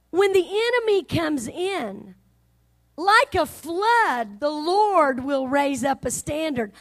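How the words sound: A pause comes between 'comes in' and 'like'.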